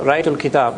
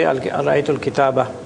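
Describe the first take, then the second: First: The last word ends on a consonant. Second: The last word ends with an added vowel. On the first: The speaker stops after this word. "When you stop, you say al-kitab" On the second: The speech continues without a stop. "You don't say"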